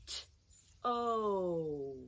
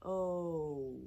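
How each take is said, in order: First: "T-o" said as two separate sounds; "T-o" segmented slowly for kids; sounds split apart. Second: Said in the usual way. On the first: Shown as a demonstration. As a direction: stretch "T-o" into its sounds. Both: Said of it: "Let's say it slowly".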